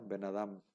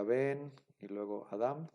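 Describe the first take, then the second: First: "Ben Adam" joined as one word; "Ben Adam" linked without a break, stress in "Adam"; run together. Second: "Ben" and "Adam" said apart, each stressed; two separate words. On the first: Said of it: "se debe de pronunciar de corridito". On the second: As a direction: break between "Ben" and "Adam". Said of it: "se debe de pronunciar de corridito, no se pronuncia". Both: Shown as a demonstration.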